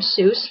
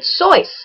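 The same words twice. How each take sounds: First: The name rhymes with the word deuce. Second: The name rhymes with the word rejoice. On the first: This is the common pronunciation, not the owner's. The speaker calls it wrong. "You're wrong as the deuce, and you shouldn't rejoice. If you're calling him Seuss" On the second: This is how the owner of the name says it. The speaker calls it right. "he pronounces it Seuss"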